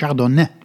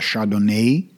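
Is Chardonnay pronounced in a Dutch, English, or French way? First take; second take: French; English. First: It is said with a French pronunciation. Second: It is said with a stretched English pronunciation. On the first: "gecorrigeerd door een Fransman die zegt: het is Chardonnay" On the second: "De Engelsen rekken dat woord nog wat uit naar Chardonnay"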